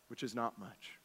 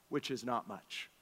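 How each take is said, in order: First: Even softer, lower echo; softer repeat. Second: Much softer, dropped low; quiet aside. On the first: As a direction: repeat it almost under the breath. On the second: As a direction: let it fall away quietly. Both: Shown as a demonstration.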